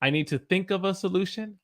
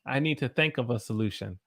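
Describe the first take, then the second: First: Said in the usual way. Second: "think" leaning towards "thenk"; "think" with an eh vowel, Southern style. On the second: Shown as a demonstration. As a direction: let the i in "think" become eh. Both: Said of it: "kinda becomes a".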